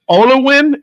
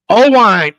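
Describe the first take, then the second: First: The name is said like 'Olowin'. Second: The name is said like 'Oh-wine'. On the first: The speaker calls it wrong. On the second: The speaker calls it right.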